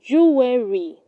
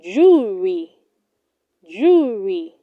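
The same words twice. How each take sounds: First: Jewelry said as "joo-WE-ree"; wrong pronunciation. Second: Jewelry shortened to "JOO-ree"; correct pronunciation. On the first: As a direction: put an extra "weh" inside jewelry. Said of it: "Do not say". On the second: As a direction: say jewelry in two smooth syllables. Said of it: "It is pronounced". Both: Shown as a demonstration.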